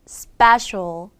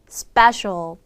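No difference in how they are said.

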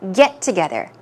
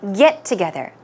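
First: The stress is on the word get. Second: The stress is on the word get.

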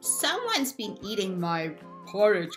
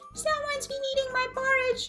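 First: It is said in a huge, deep bear growl. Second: It is said in a tiny, high bear growl.

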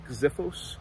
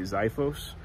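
First: The word is said closer to the Greek way. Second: The word is said the usual American English way. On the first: The speaker calls it right. "I think that the Greek pronunciation is more like Xiphos" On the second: The speaker calls it wrong. "Here in the U.S., we tend to say Xiphos. I do believe that that is inaccurate"

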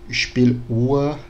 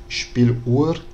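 No difference in how they are said.

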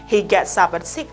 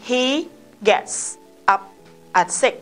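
First: Final consonants are linked into the following vowels. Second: Each word is said separately, without linking. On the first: The speaker calls it right. "Vậy chỗ này cô sẽ đọc là" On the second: The speaker calls it wrong. "Nếu mà mình đọc đơn là gì? ... Thì không có sai, nhưng nó sẽ bị chậm"

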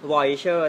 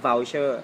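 First: The word is said with a Thai-style pronunciation. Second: The word is said with an English-style pronunciation. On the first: The speaker calls it wrong. "เราชอบอ่านว่าอะไร" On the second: The speaker calls it right. "แต่จริงๆออกเสียงว่า"

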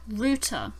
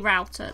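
First: The word is said in a British pronunciation. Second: The word is said in an American pronunciation. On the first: "is how we say it in the UK" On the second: "that's the American way of saying it"

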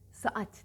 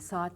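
First: A slight break separates the two vowels. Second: The two vowels are merged into one long vowel. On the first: The speaker calls it right. "Saat derlerdi" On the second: The speaker calls it wrong. "saat demezlerdi"

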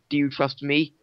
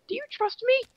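First: It is said in a man's voice. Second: It is said in a sad woman's voice.

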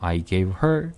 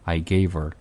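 First: The h in 'her' is clearly pronounced. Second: The h in 'her' is dropped and weak.

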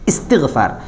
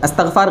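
First: The word begins with an 'i' vowel sound. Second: The word begins with an 'a' vowel sound. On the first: The speaker calls it right. "इसका तलफ़ुज़ सही करना है" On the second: The speaker calls it wrong. "अस्तग़फ़ार गलत है"

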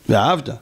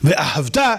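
First: The stress is on the middle syllable. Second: The stress is on the final syllable. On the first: You loved once in the past. The speaker calls it wrong. "פעם אהבת" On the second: It is a command to love. The speaker calls it right. "ציווי"

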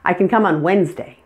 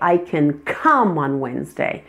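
First: Every word is equally full, with no reduction. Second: The word 'can' is reduced to 'kin'. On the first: The speaker calls it wrong. "when somebody pronounces it with all the words exactly equal with no reductions" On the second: The speaker calls it right. "The can reduces to kin"

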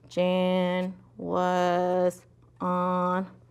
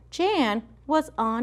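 First: The words are read very slowly. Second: The words are read at a natural speaking pace. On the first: The speaker calls it wrong. "That's too slow" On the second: The speaker calls it right. "read at an appropriate rate, just like how if you were talking"

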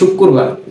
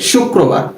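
First: The word begins with a plain s sound. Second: The word begins with an sh sound. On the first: The speaker calls it wrong. "অনেকে আবার এটাকে বলে শুক্রবার, এটা বলা যাবে না" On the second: The speaker calls it right. "কি বলতে হবে? শুক্রবার। ... তালব্যস্ব শুক"

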